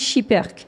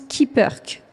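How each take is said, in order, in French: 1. Le nom se dit à la française. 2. Le nom se dit à la manière belge d'origine. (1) "en France, effectivement, on dit Chipperke" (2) "Le nom d'origine qui est belge se prononce Kipperke"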